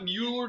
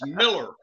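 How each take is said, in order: First: The name is said with a 'mew' sound. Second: The name is said like 'Miller'. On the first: The speaker calls it wrong. "it's not Mueller" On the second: The speaker calls it right. "It's Miller. It's German, and if it's M-U-E-L-L-E-R, it's Miller in Texas"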